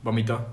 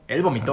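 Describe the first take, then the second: First: Vomito with stress on the middle syllable, voMIto. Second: Vomitó with the stress landing on the final tó; Él vomitó, lean on the last syllable. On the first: Co-host corrects the stress, saying Vomito as voMIto. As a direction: say Vomito stressing mi, not the end. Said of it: "eso es decir que alguien más vomitó". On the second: Co-host contrasts the past tense, stressing the end of vomitó. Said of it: "Sí, es vomitó". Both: Shown as a demonstration.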